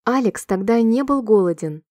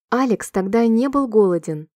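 Both takes have the same delivery.

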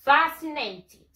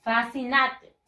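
First: Fascinated said slowly as "FA-si-nay-tid"; slow, higher "FA-si-nay-tid"; correct pronunciation. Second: Fascinated read as written, "fah-see-nat-ed"; spelling pronunciation of fascinated; read as spelled. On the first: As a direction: model "fascinated" with "nay" and a strong FA. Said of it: "se pronuncia de esta manera". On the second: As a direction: say "fascinated" with Spanish vowels. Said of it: "Se escribe así". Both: Shown as a demonstration.

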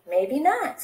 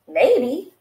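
First: Maybe not lifted at the end on not; carefree goose, rising tone; light shrug. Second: Maybe said with a falling, settled tone; thoughtful goose, falling tone; musing maybe. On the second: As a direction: ponder it, letting it drop. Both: Acted. Goose muses, repeats maybe.

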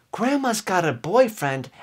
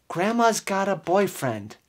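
No difference in how they are said.

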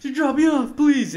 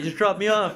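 First: High, louder desperate begging; desperate pleading. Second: Laughing while begging; half-laughing urgent request; laughing plea. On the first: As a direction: whine it like you can't hold it. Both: Retold or imitated. Desperate for a bathroom.

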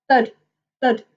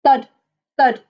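The two takes are said the same way.

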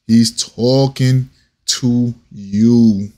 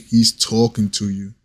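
First: TALKING and YOU stretched out slowly; slow right down and lean on "talking to you"; drawn-out emphasis. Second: Said in the usual way. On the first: Real, not acted. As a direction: hammer it home, each word of "He's talking to you" drawn out. Repeats the line for emphasis.

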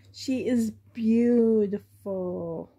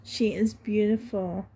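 First: Drawn-out slow she is beautiful; savoring each word, slowly. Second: Said in the usual way. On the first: Real, not acted.

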